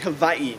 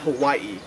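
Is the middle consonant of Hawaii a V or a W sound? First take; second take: V; W. First: The middle consonant is said as a V. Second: The middle consonant is said as a W. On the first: The speaker calls it right. "it's actually Hawaii, The W makes a V sound" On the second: The speaker calls it wrong. "not Hawaii"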